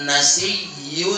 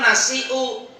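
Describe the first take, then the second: First: The middle has a doubled y sound. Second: The middle has a glottal stop. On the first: This is the reading with the hamza replaced. "pengucapannya itu dengan ya yang bertasdid" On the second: This is the original form. "Asalnya mah nasiu"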